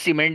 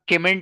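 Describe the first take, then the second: First: The word begins with an S sound. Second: The word begins with a K sound. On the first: The speaker calls it right. "उसे सीमेंट ही पढ़ेंगे आप" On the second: The speaker calls it wrong. "उसे आप केमेंट नहीं पढ़ेंगे वरना बहुत हंसेंगे लोग"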